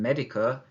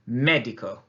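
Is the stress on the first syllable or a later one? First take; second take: later; first. First: The stress is not on the first syllable. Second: The stress is on the first syllable. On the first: The speaker calls it wrong. "rather than" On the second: The speaker calls it right. "we need to really stress that, that sound"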